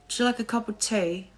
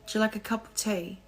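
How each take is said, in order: Both takes have the same delivery.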